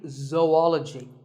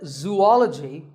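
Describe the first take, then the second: First: The first syllable sounds like 'zo'. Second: The first syllable sounds like 'zoo'. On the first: The speaker calls it right. "This is actually zoology. Zo and ology" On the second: The speaker calls it wrong. "it's actually wrong. That is a very common mispronunciation"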